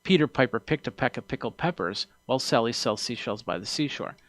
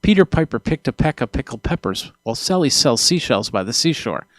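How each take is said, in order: First: Spoken from the corner of the mouth, plosives kept down; softer off-axis read with gentle P's; off to the side. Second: Popping plosives, spoken straight into the microphone; louder, close-on-mic tongue twister with hard P pops. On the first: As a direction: angle the mouth away from the mic to tame the P's. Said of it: "as opposed to saying it like". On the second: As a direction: aim the P's right at the capsule and let them pop. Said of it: "So if I go like this". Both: Shown as a demonstration.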